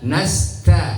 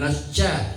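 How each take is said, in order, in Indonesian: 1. Huruf t dilepas dengan hembusan napas ringan. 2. Huruf t-nya dibesar-besarkan jadi bunyi ch yang mendesis.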